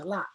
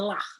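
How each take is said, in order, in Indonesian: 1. Diakhiri dengan vokal tanpa bunyi h. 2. Diakhiri dengan bunyi h yang terdengar. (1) "dia tidak dibaca jadi H. Jadi la itu aja" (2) "tapi kalau pakai titik dia di belakang itu namanya lah"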